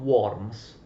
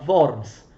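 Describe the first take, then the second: First: The name is pronounced a non-German way. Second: The name is pronounced the German way. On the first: The speaker calls it wrong. "non, non Worms" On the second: The speaker calls it right. "è una città tedesca, si pronuncia Worms"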